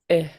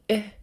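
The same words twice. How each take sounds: First: The short vowel is said on a low tone. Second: The short vowel is said on a high tone. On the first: "Short, low" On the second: "And high tone"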